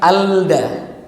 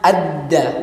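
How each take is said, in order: First: The L is clearly sounded before the D. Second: The L merges into a doubled D sound. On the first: The speaker calls it wrong. "bukan alda" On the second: The speaker calls it right. "maka bunyinya adda"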